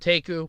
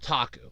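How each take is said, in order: First: The middle vowel sounds like a long A. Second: The middle vowel is not a long A.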